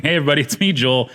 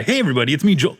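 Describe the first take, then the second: First: Said in the usual way. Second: Hammed-up DJ greeting; radio host voice. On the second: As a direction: announce it like on air. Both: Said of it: "No, I'm just kidding".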